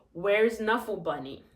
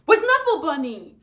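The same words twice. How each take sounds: First: Said in the usual way. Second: Loud, higher, demanding; angry voice. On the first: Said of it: "This is normal". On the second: Shown as a demonstration. Showing students the angry version, loud and demanding. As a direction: snap the question out angrily. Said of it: "Say it in an angry voice".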